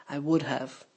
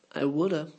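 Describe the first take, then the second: First: Said in the usual way. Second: "woulda" with the have reduced to uh; contracted woulda. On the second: Shown as a demonstration. Teacher showing the native contraction, swallowed. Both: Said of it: "the words get swallowed and contracted".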